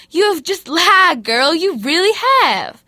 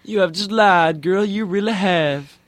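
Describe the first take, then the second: First: Loud, sassy rebuke; scolding Jesus. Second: High, loud sassy rebuke; sassy scolding Jesus. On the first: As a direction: call her out on the lie. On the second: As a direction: tease her for lying. Other speaker echoes Jesus. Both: Retold or imitated.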